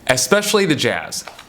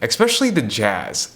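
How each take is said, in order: First: Especially is said with no k sound. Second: Especially is said with an extra k sound. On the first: The speaker calls it right. "that's how you say it" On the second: The speaker calls it wrong. "I've been putting a C in there when there's no C"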